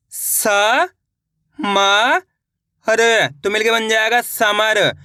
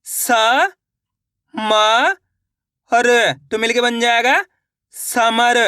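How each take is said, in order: First: स, म, हर slowly with long pauses, then समर blended; syllable by syllable. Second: Sounds each letter slowly, then blends समर; स, म, हर spelled out with pauses, then समर joined; syllable by syllable. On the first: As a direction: sound out each letter, then join into समर. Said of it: "एक बार फिर से देखिए". (एक एक अक्षर धीरे धीरे, फिर समर) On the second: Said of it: "मेरे तरीके पे गौर करना है". (अक्षर अलग अलग बोलकर फिर समर मिलाकर) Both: Shown as a demonstration.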